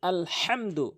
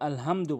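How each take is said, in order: First: The h is pressed from the middle of the throat. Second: The h is a plain light breath. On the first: The speaker calls it right. "এখানে আল হামদু বলবেন" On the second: The speaker calls it wrong. "কখনোই মনের ভুলেও আল হামদু বলবেন না"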